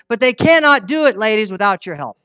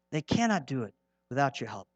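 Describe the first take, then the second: First: Forceful appeal. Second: Soft, lower, cannot still leaned on; hushed repeat. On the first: Preacher urging the ladies in church, loud and forceful. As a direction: raise the voice and press the plea to the women. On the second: Preacher repeating his plea to the ladies, hushed and low. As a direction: drop the voice to let it sink in. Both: Real, not acted.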